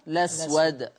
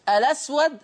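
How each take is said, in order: First: The word starts directly with the L sound. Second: The word starts with a vowel before the L. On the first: "حذفها" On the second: "اثبات همزة الوصل"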